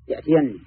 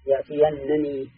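First: A single doubled n with an i vowel ends it. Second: A doubled n with a, then another n-i, ends it. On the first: "بنون مشددة مكسورة" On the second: "مفتوحة يليها نون مكسورة"

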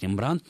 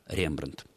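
First: The stress is on the last syllable. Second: The stress is on the first syllable. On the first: The name came through French. The speaker calls it wrong. "во французском языке ударение на последний слог" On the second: This is how the source language says it. The speaker calls it right. "правильным ударением будет все-таки так, как это произносится в языке-источнике"

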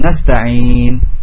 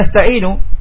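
First: The word ends on a stopped nun. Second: The word ends with a final vowel. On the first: The reciter pauses at the end of the verse. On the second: This is the original form without pausing.

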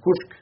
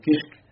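First: The name has an 'oo'-like vowel. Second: The name has an 'ee'-like vowel. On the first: The speaker calls it right. "la réalité c'est Abdelhamid Kouchk, c'est comme ça qu'il faut le prononcer" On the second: The speaker calls it wrong. "disait Abdelhamid Kishk ou Kishk"

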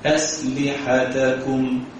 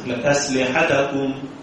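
First: Every short vowel is given its full length. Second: The vowel on the ta is clipped short. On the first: The speaker calls it right. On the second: The speaker calls it wrong.

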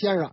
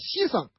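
First: Beijing pronunciation, first syllable sounds like 'xian'. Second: Local dialect pronunciation, first syllable sounds like 'xi'. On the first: "咱北京话啊，这位先生是吧？" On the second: "人家不这么叫，人叫西生啊"

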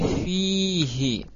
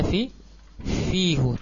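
First: The word ends with an 'i' vowel. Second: The word ends with an 'u' vowel. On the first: The speaker calls it right. "tapi fihi. Ya, dengan di kasrah dhamirnya" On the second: The speaker calls it wrong. "tidak kita baca fihu"

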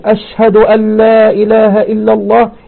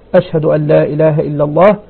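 First: The phrase is said in a raised, loud voice. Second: The phrase is said in a low, quiet voice. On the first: It is the public call heard by everyone. "يرفع صوته" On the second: It is the private first saying, heard only nearby. "يقولها أولا بصوت منخفض يسمعه القريب"

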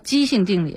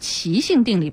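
First: The first syllable is pronounced jī, level tone. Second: The first syllable is pronounced qí, rising tone. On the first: It is the reading used for odd numbers. The speaker calls it wrong. "不是叫奇性定理。奇数，我们因为小时候学奇数偶数嘛" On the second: It is the scientific term for singularity. The speaker calls it right. "咱们这是叫奇性定理"

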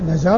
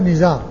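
First: The first vowel is an a sound. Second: The first vowel is an i sound. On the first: "بالفتح" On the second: "بالكسر"

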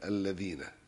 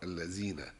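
First: The middle consonant is a voiced th sound. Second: The middle consonant is a buzzing z sound. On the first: The speaker calls it right. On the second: The speaker calls it wrong.

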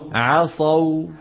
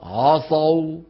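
First: The ayn is pronounced light, without heaviness. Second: The ayn is pronounced heavy and thick. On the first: The speaker calls it right. "الصواب" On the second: The speaker calls it wrong. "الغلط"

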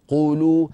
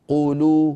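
Both takes have the same delivery.

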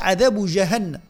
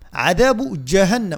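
First: The j is made without fully closing the airflow. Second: The j is made with a full closure. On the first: The speaker calls it wrong. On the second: The speaker calls it right.

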